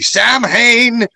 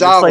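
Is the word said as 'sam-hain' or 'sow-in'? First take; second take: sam-hain; sow-in. First: It is said as spelled, like 'sam-hain'. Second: It is said like 'sow-in', the Gaelic way. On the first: The speaker calls it wrong. "he pronounces it all phonetically" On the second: The speaker calls it right. "It's pronounced"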